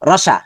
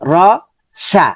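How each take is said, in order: First: The syllables run together without any pause. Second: Each syllable is said apart with a pause.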